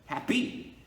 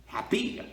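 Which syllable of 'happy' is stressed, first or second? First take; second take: second; second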